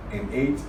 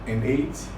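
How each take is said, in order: Both takes have the same delivery.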